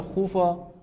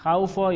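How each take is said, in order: First: خوفا said khoo-fa, with a pure long oo; long u vowel. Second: خوفا said khow-fa, with an ow glide; first vowel as diphthong. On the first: Teacher offers student two readings, خوفا with long oo. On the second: Teacher offers student two readings, خوفا with ow diphthong. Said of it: "خوفا یا خوفا". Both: Shown as a demonstration.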